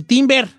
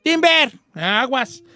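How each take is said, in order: First: Said in the usual way. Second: Shouted timber. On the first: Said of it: "en inglés se dice". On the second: Shown as a demonstration. Lumberjack warning the crew that a tree falls, shouted. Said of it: "tienes que gritar".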